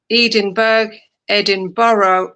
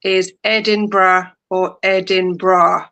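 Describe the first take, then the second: First: Edinburgh said as Edin-burg and Edin-borrow; the slow wrong ways to say Edinburgh; wrong pronunciation. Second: Edinburgh said slowly as Edin-bruh; correct pronunciation. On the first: Co-host shows the ways Edinburgh is not said. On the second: Co-host reads out the most common way to say Edinburgh. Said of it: "most commonly pronounced". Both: Shown as a demonstration.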